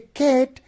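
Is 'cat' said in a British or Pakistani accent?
Pakistani. The word is said in a Pakistani accent. "cat would be the accent or pronunciation of Pakistani English"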